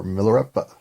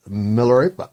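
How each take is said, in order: First: "Milarepa" as mil-er-EP-uh; alternative pronunciation attempt. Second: "Milarepa" as mil-er-AY-puh; first pronunciation attempt. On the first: Reader second-guessing the title, offering "Milarepa" as mil-er-EP-uh. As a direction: say "Milarepa" with a short EH in the third syllable. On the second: Reader introducing the biography, trying "Milarepa" as mil-er-AY-puh. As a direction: say "Milarepa" with a long vowel in the third syllable, like AY. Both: Shown as a demonstration. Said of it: "I don't know".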